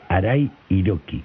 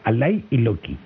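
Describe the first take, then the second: First: The name is said with R sounds. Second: The name is said with L sounds.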